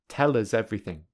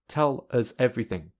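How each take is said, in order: First: The words are linked smoothly together. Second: The words are said separately without linking. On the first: "secondly with linking" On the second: "firstly without linking"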